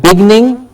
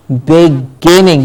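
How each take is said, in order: First: "beginning" squashed to "BIG-ning"; quick "beginning" swallowed to "bigning"; wrong pronunciation. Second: "beginning" slowly, stretched as big-GIN-ning; drawn-out "beginning" with stress on GIN; careful pronunciation. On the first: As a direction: say "beginning" in two syllables, middle vowel dropped. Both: Shown as a demonstration. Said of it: "not beginning".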